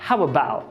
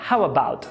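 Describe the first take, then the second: First: The T at the end is dropped. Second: The T at the end is dropped.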